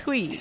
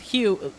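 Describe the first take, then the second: First: The name sounds like the Spanish word fui. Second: The name sounds like the English name Hugh. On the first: The speaker calls it right. "But it's Hui" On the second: The speaker calls it wrong. "sometimes my accent gets in the way, okay? And all I want to say is Hugh"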